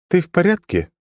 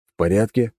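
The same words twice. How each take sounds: First: High, level, unchanging tone; monotone girl. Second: Said in the usual way. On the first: A narrator's reading. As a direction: ask it with no feeling at all. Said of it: "Всё тем же тоном".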